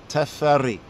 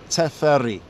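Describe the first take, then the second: First: The name has an Ethiopian pronunciation. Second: The same.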